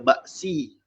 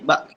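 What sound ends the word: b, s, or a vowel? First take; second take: vowel; b. First: The word ends with an s and a vowel. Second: The word ends on a b sound. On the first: "Jangan zahirkan baris si" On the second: "kita juga tak akan bunyi bak"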